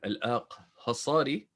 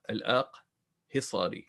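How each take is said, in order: First: The vowel after 'Aqh' is an 'a' sound. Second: The vowel after 'Aqh' is an 'i' sound. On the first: The speaker calls it wrong. "I was pronouncing it Al-Aqhasari" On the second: The speaker calls it right. "it is actually with a kasra"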